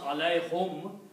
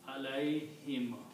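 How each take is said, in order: First: The last syllable has an 'u' vowel, 'hum'. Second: The last syllable has an 'i' vowel, 'him'. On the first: This is the original form of the word. "If you pronounce alay hum, it may be a little bit difficult" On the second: This is the smoother form used in recitation. "To make it easy on the tongue, it is pronounced alay him"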